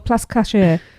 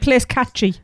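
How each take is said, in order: First: The second word sounds like 'cashay'. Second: The second word sounds like 'catchy'.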